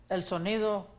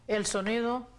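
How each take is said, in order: No difference in how they are said.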